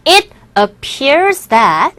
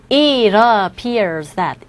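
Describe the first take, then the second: First: "it appears that" with each word said separately, t fully released; separated careful pronunciation. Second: "it appears that" linked as "i-rappears", t flapped; linked pronunciation. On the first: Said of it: "또박또박 발음하게 되면". (또박또박 끊어서 발음) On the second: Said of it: "앞에 단어와 연결해서 발음하시면". (연음해서 이러피어스처럼) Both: Shown as a demonstration.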